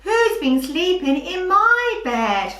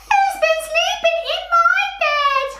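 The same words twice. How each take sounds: First: Middle-pitched, raised sing-song bear; put-on voice, moderately higher than usual; storybook bear voice. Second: Tiny, very high squeaky bear voice; extremely high little storybook bear. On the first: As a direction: act out the middle bear's question. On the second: Acted. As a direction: squeal it out right at the top of the voice. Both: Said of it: "not only people's voices that make high and low sounds".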